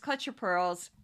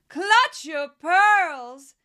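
First: It is said in his normal voice. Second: It is said in a put-on voice.

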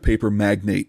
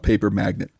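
First: The last word ends in a clear 'nate' sound. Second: The last word is said like 'magnet'. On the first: A wealthy businessman in paper. The speaker calls it right. "He was a paper magnate" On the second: Someone who makes paper stick to him. The speaker calls it wrong. "Robert Kraft was not a paper magnate"

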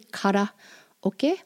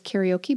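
First: It uses Japanese sounds with a flapped R. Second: It uses English sounds and an English R. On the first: The speaker calls it right. "but it's really" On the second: The speaker calls it wrong. "got mangled, and we pronounce it here as"

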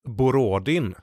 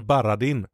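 First: The first two vowels sound like O. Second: The first two vowels sound like A. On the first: The speaker calls it wrong. "han heter ju inte det" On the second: The speaker calls it right. "För O är A, han heter Baradin"

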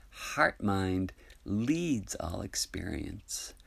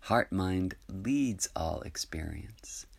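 No difference in how they are said.

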